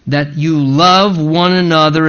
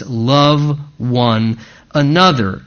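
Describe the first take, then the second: First: Said in the usual way. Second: LOVE ONE ANOTHER spaced out very slowly for emphasis; emphatic repetition. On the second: Shown as a demonstration. Preacher repeating the command to his congregation, slow and emphatic. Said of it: "again, second time for emphasis".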